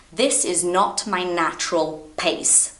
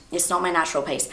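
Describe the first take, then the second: First: Deliberately slow, measured delivery; unhurried teacher pace. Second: Said in the usual way. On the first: Shown as a demonstration.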